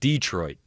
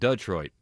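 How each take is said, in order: First: Detroit is pronounced the way locals say it. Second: Detroit is pronounced the way outsiders say it. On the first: The speaker is from the city. The speaker calls it right. "he said Detroit" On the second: The speaker is not from the city. The speaker calls it wrong. "It's not Detroit"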